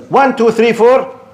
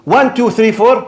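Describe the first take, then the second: No difference in how they are said.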